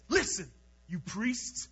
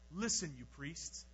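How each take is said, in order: First: It is said in a bold, forceful way. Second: It is read in a calm, plain way.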